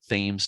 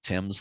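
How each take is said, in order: First: It is said the local Connecticut way. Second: It is said the way it is in England. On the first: This is how the local river is called. "They do pronounce it Thames down there" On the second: This is how the English river is called. "not Thames like in England"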